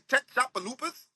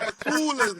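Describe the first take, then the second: First: The name is sounded out letter by letter, mangled. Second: The name is said smoothly in local form. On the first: A navigation app reads the name without knowing it. The speaker calls it wrong. "That bitch be saying" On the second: This is how locals say the name. The speaker calls it right.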